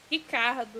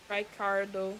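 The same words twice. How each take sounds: First: Ricardo in Brazilian Portuguese, R said like H; Brazilian accent. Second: Said in the usual way. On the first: Shown as a demonstration. Streamer re-saying a game name as a Brazilian name, Brazilian accent. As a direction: say Ricardo as "Hee-KAR-doo", Brazilian style. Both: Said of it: "say their name with a Brazilian accent".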